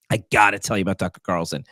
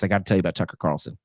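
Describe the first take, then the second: First: GOTTA leaned on, rest of the line quick; stress on GOTTA. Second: Said in the usual way. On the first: Real, not acted. Host teasing listeners about Tucker Carlson, GOTTA stressed. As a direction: punch the word "gotta".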